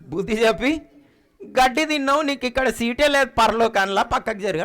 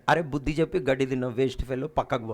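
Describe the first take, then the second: First: Retelling God's rebuke with a laugh; God's words laughing. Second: Low, fast scolding voice of God. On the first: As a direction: chuckle through the quoted rebuke. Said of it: "ఏమంటాడు". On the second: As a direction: rattle off God's rebuke, low and quick. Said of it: "దేవుడు అంటాడు". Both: Retold or imitated.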